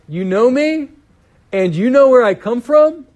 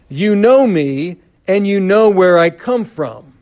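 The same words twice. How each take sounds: First: It is said with an ironic, questioning tone. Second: It is read plainly, without irony.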